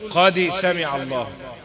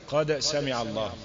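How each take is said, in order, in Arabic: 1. الصدى بعد الدال يشبه الكسرة. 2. الصدى بعد الدال يشبه الفتحة. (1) "الميل الى الكسر في لحن" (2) "القلقله تميل الى الفتح"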